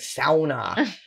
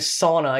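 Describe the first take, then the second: First: It is pronounced the local Finnish way. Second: It is pronounced the usual American way. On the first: The speaker calls it right. "I'm saying sauna" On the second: The speaker calls it wrong. "I'm never saying sauna again"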